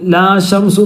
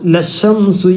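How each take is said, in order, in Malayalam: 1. ആദ്യ സ്വരം നീട്ടി ദീർഘമായി ഉച്ചരിക്കുന്നു. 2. ആദ്യ സ്വരം ഹ്രസ്വമാണ്, അടുത്ത വാക്കിലേക്ക് ചേർന്നൊഴുകുന്നു.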